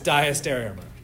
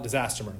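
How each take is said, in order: First: The word begins with a 'dia-stereo' sound. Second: The word begins with a 'disaster' sound. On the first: The speaker calls it right. "It is diastereomer" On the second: The speaker calls it wrong. "you're more than welcome to call it disasteromer. That's okay. It's officially wrong"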